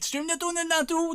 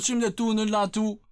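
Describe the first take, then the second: First: Much higher, sing-out delivery; high-pitched catchphrase. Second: Said in the usual way. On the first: Acted. Streamer introducing himself to chat, high hyped voice.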